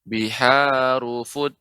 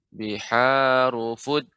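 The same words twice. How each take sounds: Both takes have the same delivery.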